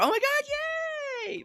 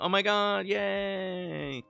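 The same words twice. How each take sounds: First: It is said with a genuine, excited tone. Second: It is said with a sarcastic tone. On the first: The speaker is truly pleased. "Like genuine" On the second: The speaker is not really pleased. "You could read it as sarcasm"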